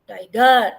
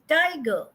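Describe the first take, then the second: First: The stress is on the second syllable. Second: The stress is on the first syllable. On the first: The speaker calls it wrong. "I don't say tiger" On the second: The speaker calls it right. "I say tiger ... So first stress, then unstress"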